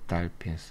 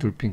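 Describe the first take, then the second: First: The first vowel is an open 'ah' sound. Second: The first vowel is a rounded 'oh' sound. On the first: This is the original pronunciation. "원래 발음이 이렇게 아 사운드죠" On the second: This is how Koreans usually say it. "우린 돌핀, 돌핀 그러는데"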